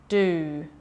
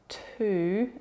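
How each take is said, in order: First: The first sound is a voiced d. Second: The first sound is a puffed, unvoiced t. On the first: The speaker calls it wrong. "Listen to me voice that sound" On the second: The speaker calls it right. "Numbers are great for working on t"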